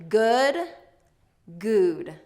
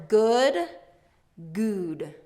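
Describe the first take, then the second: No difference in how they are said.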